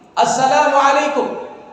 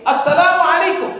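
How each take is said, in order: First: The greeting is said in a raised voice. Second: The greeting is said in the highest voice.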